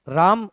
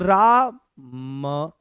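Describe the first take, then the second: First: The word is said as one smooth unit. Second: The word is broken into two separate parts. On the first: "राम उच्चारण same ही आ रहा है" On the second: "ऐसे तोड़ करके बोलो"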